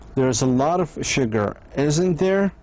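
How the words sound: The voice rises on the final tag. The speaker is unsure and asks a real question. "how to be unsure of the answer"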